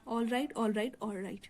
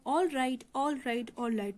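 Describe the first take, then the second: First: Scared. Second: Mildly menacing all right; intimidating. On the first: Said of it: "George थोड़ा डर गया". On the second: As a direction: back her off with a warning. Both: Acted.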